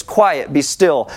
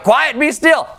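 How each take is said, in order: First: Said in the usual way. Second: Higher, firm command to the storm; commanding rebuke. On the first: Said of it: "said to the waves". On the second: Acted. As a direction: rebuke the waves with authority. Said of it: "He's like".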